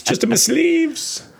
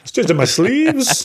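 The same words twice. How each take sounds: First: Much higher, slow and drawn out; a higher, sillier sing-song take; high slow silly voice. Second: Lightly voiced, high and slow; a playful high sing-song; high slow magician voice. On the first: Pretend. Repeats joke, higher. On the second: Joking magician line.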